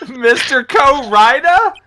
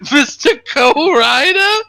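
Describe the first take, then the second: First: Slow, baffled rising question; confused exasperated yell. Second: High, slow mock-baffled cry; imitated confused yell. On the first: Real, not acted. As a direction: call it out in total confusion. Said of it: "confusion and exasperation in his voice as he yelled". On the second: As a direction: replay the friend's bewildered shout. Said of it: "Swissy's voice as he yelled".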